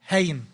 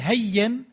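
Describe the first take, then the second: First: The middle consonant is single. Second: The middle consonant is doubled. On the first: "يجوز أن تقول هين" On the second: "نفس الشيء تقول هين"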